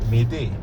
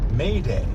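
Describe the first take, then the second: First: The first vowel is a short, pure French vowel. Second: The first vowel is a long, gliding English A. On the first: The speaker calls it right. "the French vowel is shorter" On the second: The speaker calls it wrong. "But don't pronounce it like that. Instead of that English A sound"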